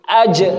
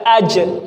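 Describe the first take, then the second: First: The final consonant is released with escaping breath. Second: The same.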